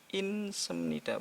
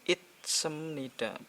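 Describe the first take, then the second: First: An n sound ends the first syllable. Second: A t sound ends the first syllable. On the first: "bukan pula" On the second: "bukan itsemnida"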